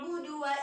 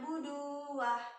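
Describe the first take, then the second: First: The final vowel is short and flows straight on. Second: The final vowel is stretched out long. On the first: The speaker calls it right. "hanya satu harokat, jadi langsung melangkah" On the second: The speaker calls it wrong. "nggak boleh dipanjangkan"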